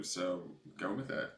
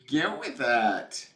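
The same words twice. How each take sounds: First: Said in the usual way. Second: Slow, loud, higher GO WITH IT, drawn out; emphatic cheer. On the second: Real, not acted. Urging a viewer to follow the purple, drawn-out cheer. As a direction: stretch each word of "Go with it" and push it out. Repeats advice as drawn-out cry.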